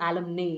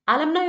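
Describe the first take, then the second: First: "alumni" ending in NAY, like day; mistaken pronunciation. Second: "alumni" ending in NAI, like eye; corrected pronunciation. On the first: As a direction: say "alumni" wrongly as a-lum-NAY. ("alumni" അലംനേ എന്ന തെറ്റായ ഉച്ചാരണം) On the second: ("alumni" അലംനായ് എന്ന ശരിയായ ഉച്ചാരണം) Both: Shown as a demonstration. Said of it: "not alumni അല്ല".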